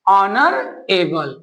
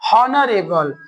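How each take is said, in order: First: The word begins with a vowel, no h sound. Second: The word begins with an audible h sound. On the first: The speaker calls it right. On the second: The speaker calls it wrong. "हॉनरेबल नहीं"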